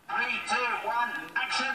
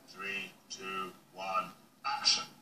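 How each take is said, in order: First: It is said in a higher voice. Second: It is said in a deeper voice.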